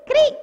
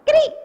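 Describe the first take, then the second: No difference in how they are said.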